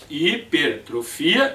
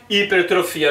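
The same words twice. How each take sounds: First: HIPERTROFIA slowed and split after "hiper"; slow teacher's breakdown of "Hipertrofia"; split at the prefix. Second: Said in the usual way. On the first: Shown as a demonstration. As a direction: say "Hipertrofia" in slow chunks, hi-per-trofia. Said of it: "os prefixos são de sílabas". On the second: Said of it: "a mesma coisa".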